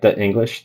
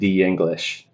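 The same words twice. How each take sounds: First: A glottal stop separates 'the' from 'English'. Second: 'The' glides into 'English' with a Y sound. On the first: "with a glottal stop in, in between it" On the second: "the before a vowel often becomes the plus the vowel sound, maybe with kind of like a hidden Y"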